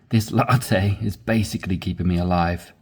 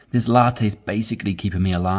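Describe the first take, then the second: First: It is read at a slower pace. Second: It is read at a quicker pace.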